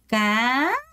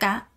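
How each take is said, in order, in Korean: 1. 음이 완전히, 분명하게 위로 올라가요. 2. 음이 조금만 올라가요. 서둘러서 그래요. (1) "까 까 까 이렇게 올리시는 겁니다" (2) "여러분 까 이렇게 해요. 안 돼요"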